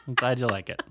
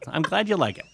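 First: Said in the usual way. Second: Laughing mock praise.

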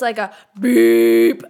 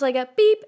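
First: Blaring horn imitation; long loud honk beep. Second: Said in the usual way. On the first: Shown as a demonstration. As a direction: stretch beep out slow and loud like a car horn. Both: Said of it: "not just like a beep".

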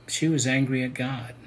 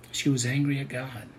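No difference in how they are said.

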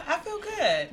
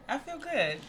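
First: Laughing through the words; a nervous laugh under it. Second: Said in the usual way. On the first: Real, not acted. Nervous guest answering how she feels.

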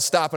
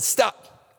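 First: Said in the usual way. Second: High, loud mock child's yell; imitating his son's yell; yelled stop. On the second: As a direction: cry stop like the boy would. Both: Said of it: "I told him to yell".

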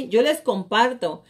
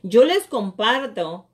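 No difference in how they are said.

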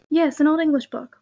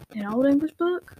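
First: Assured "Yes", falling in tune; confirming answer. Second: Slow query, rising on "book"; drawn-out "book" with a rising tune; questioning echo. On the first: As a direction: confirm "an old English book" without the questioning lift. Confirming the questioned book. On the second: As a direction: question "An old English book" slowly, lifting the end. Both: Acted.

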